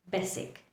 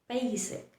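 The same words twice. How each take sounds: First: The B is forceful and the vowel short. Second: The first vowel is stretched out long. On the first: The speaker calls it wrong. "They put pressure on the sound of B" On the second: The speaker calls it right. "You stretch the sound of the vowel"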